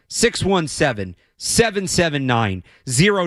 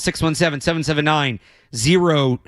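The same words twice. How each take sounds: First: The numbers are said slowly. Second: The numbers are said quickly. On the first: The speaker calls it right. "I should say that slower" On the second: The speaker calls it wrong. "I rushed through it"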